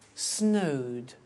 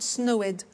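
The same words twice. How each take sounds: First: The ending is just a plain D sound. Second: The ending is a separate extra syllable. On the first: The speaker calls it right. "we eliminate the E" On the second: The speaker calls it wrong. "not snowed"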